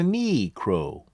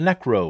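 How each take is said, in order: First: The first syllable sounds like 'knee'. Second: The first syllable sounds like 'neck'. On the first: The speaker calls it wrong. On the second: The speaker calls it right.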